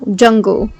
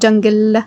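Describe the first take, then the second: First: The final L is dark, like ooh. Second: The final L is light, like leh. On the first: The speaker calls it right. "don't forget the uh, the dark L sound" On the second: The speaker calls it wrong. "Not leh leh"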